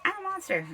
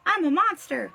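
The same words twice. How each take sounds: First: Put-on tiny high troll-girl voice; monster girl. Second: Higher, louder odd-timbred I'm; playful monster-girl voice. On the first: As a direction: chirp it like a proud little troll. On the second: Acted. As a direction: squeal I'm a monster in a put-on voice. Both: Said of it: "She's like".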